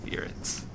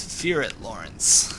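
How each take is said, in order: First: Breathy whisper of fear it. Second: Said in the usual way. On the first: Real, not acted. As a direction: hush it under your breath. Repeats the quote to himself.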